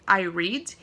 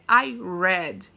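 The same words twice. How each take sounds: First: The word read has a long ee vowel. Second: The word read has a short e vowel. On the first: I read regularly, in the present. "se eu quiser falar eu leio" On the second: I read it in the past. "se eu quiser falar eu li"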